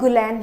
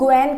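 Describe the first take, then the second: First: The name is said with an L sound. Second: The name is said without an L sound. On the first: The speaker calls it wrong. "ऐसे लगता है कि ये क्या है, गुलैन है" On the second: The speaker calls it right. "इसको हम कैसे प्रोनाउंस करते हैं, इसको हम गुएन कहते हैं"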